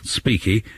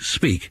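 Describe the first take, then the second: First: The final vowel sound is pronounced. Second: The final vowel sound is left silent. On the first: The speaker calls it wrong. "rather than being speaky" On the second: The speaker calls it right. "it's actually speak"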